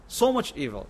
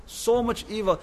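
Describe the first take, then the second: First: Said in the usual way. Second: So much evil lifted higher, stress on so; emphatic repeat. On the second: Real, not acted. Preacher repeating the warning to the congregation, higher and emphatic. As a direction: push the repeat up in pitch for weight.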